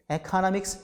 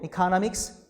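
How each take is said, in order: First: "economics" opened with "eh"; initial "eh" vowel. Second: "economics" opened with "ee"; initial "ee" vowel. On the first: Teacher contrasts two free variants, "eh" starting economics. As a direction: say eh-kuh-NOM-iks for "economics". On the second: Teacher contrasts two free variants, "ee" starting economics. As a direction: say ee-kuh-NOM-iks for "economics". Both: Shown as a demonstration. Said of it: "economics 자유 변이죠".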